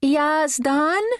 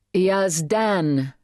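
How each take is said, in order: First: "Yazdan?" said haltingly with a high questioning rise; a hesitant "Yazdan?" with a high rise; uncertain name. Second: "Yazdan," said firmly with a falling tune; a firm corrective "Yazdan"; corrective name. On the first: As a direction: try the name "Yazdan?" unsure, rising high. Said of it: "said something that sounded like". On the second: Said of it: "It sounded like a correction". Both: A narrator's reading.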